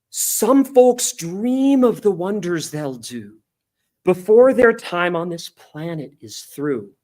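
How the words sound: It is delivered with hopeful, passionate conviction. The words express boundless optimism and hope. The speaker calls it right. "sang the line with such conviction"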